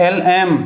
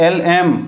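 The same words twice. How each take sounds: Both takes have the same delivery.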